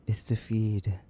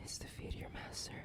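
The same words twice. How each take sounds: First: Said in the usual way. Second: Much softer, whispered order; whispered demand to serve; hushed command. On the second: Acted. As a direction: breathe it as a command.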